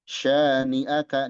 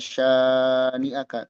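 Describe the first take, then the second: First: The vowel after 'sh' is held short. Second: The vowel after 'sh' is drawn out long. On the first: The speaker calls it right. "di sini shin dua harokat aja" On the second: The speaker calls it wrong. "kadang suka dipanjangkan ... keliru"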